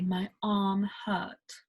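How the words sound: The r in arm is dropped, British style. "you would say"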